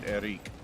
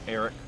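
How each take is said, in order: First: The last syllable is a long 'reek' sound. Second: The last syllable is a short 'rick' sound. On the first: This is how French speakers say the name. "in French, they pronounce it Eric. ... the R I C is Reek, not Rick" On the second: This is the speaker's own everyday pronunciation. "Eric is how I pronounce it"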